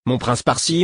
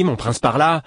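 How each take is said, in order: First: Mocking angry echo. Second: "mon prince par-là" higher and louder, the anger peaking on "mon"; mock his title back at him, building anger; angry echo, rising. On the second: Prince mocking the formal title to his friend, angry. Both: A narrator's reading. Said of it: "s'exclama-t-il avec colère".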